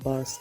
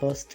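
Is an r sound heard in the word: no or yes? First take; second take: yes; no. First: The r sound is pronounced in the word. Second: The r sound is left out of the word. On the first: "यहाँ पे आर आप पढ़ भी सकते हैं" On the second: "अगर आसानी से कहना चाहें तो सीधा सीधा आप बस्ट कह दें"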